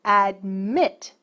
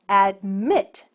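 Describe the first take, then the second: No difference in how they are said.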